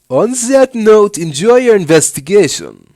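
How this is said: It is spoken in a surfer-German accent. "we'll do like a surfer, a surfer German dude"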